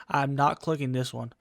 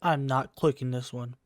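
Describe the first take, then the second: No difference in how they are said.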